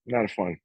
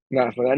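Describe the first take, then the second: First: Said in the usual way. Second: "Not fun" pushed louder, with a rising "fun"; louder emphatic "Not fun"; emphatic repeat. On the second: Shown as a demonstration. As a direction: lean on the repeat.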